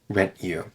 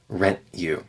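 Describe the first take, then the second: Both takes have the same delivery.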